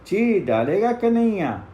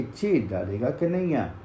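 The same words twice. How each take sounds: First: Louder, higher threat; boys' threat shouted into the forest; threatening call. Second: Distant echo answering the threat. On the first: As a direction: warn them loudly that Kanhaiya will tear them apart. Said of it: "फिर कहा". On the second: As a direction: let it come back faint from far off. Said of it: "वही आवाज वहाँ से आई कि". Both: Acted.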